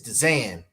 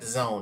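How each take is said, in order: First: The vowel sounds like 'an' in 'can'. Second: The vowel sounds like 'own' in 'bone'. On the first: This is one person's own way of saying it. "That's how that's how Blunt pronounces it" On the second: This is the usual way of saying it. "It's not the zone"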